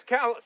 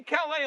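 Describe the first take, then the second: First: Local Maine Calais, ending in an s; Calais as "callus". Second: French-style Calais with a silent s. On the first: Husband insisting on the local name, Calais pronounced callus. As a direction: sound the final s in Calais. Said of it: "but over here". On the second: Husband granting the overseas name, Calais pronounced cal-ay. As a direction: end Calais on an open vowel. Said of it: "on the other side of the pond". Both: Retold or imitated.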